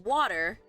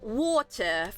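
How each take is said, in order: First: American accent, with a shorter, less rounded vowel. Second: British accent, with a rounded, drawn-out vowel. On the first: "water in American English" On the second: "when they say that's a water"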